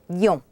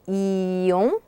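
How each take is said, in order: First: The word is said quickly. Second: The word is said slowly. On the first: "and then quickly" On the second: "slowly once"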